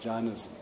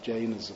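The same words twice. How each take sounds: First: The word is said with its original pronunciation. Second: The word is said with an English pronunciation. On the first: This is how it was originally said. "It was actually pronounced as Jainism" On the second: This is the usual modern English form. "anglicized, we pronounce it as Jainism"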